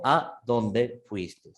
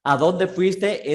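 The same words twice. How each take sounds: First: Pauses between "A", "dónde" and "fuiste"; words separated. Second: Said in the usual way. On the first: Shown as a demonstration. Teacher shows class it's two words, "A dónde" separated by a pause. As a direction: say "A ... dónde ... fuiste" slowly, word by word. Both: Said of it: "Es separado".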